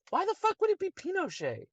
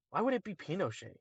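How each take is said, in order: First: Very high-pitched disbelief; incredulous repeat. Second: Quick, softer questioning; puzzled objection. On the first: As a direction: shoot the voice way up in exasperation. Repeats question, now incredulous. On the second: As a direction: question the guess quickly, without raising your voice. Questions a wrong guess. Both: Real, not acted.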